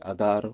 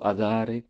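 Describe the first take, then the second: First: The word ends with no final vowel. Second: The word ends with an 'e' vowel. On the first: "la voyelle finale disparaissait complètement" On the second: "j'ai entendu beaucoup"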